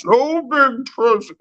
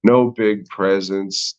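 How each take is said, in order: First: Very high, slurred mock Spanish accent; drunk Spaniard. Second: Slower, lightly slurred mock Spanish accent on "no big presents"; a hint of a drunk Spaniard. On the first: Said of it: "like a fucking drunk Spaniard". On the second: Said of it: "says it like a fucking drunk Spaniard".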